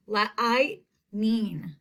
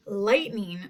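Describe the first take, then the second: First: Lightning broken up as la-I-t, then ning; sounded-out long I. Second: Said in the usual way. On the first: Shown as a demonstration. Teacher shows the long I, lightning slowly sounded out. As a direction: stretch the I in lightning, with a gap before ning. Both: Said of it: "I hear that long I sound".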